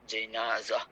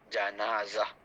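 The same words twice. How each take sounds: First: The first vowel is an 'i' sound. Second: The first vowel is an 'a' sound. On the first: "baris bawah" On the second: "jimnya baris atas"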